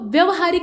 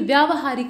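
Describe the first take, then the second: First: The vowel after 'vy' is short. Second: The vowel after 'vy' is long. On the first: The speaker calls it wrong. "व्यवहारिक नहीं होता है" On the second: The speaker calls it right. "बल्कि व्यावहारिक होता है"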